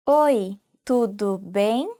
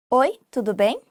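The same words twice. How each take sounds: First: Oi, tudo bem drawn out slowly for learners; slow learner repeat. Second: Said in the usual way. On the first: Shown as a demonstration. Teacher slowing down so students can repeat. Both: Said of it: "you can say".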